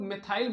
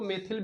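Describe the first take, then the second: First: The second syllable has a long 'ai' vowel. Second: The second syllable has a short 'i' vowel. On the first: "कई लोग मेथाइल बोलते हैं" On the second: "कभी कभी इसको मेथिल भी बोलते हैं"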